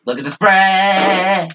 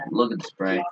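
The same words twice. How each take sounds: First: Loud, slow, high-pitched call; drawn-out shout. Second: Low muttered aside; quiet mutter. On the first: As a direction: stretch it out and yell. Gaming, repeats it loudly. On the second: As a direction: mutter it under your breath. Gaming, pointing out enemy spray. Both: Real, not acted.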